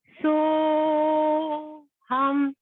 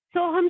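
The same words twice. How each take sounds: First: It is said very slowly. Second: It is said very fast.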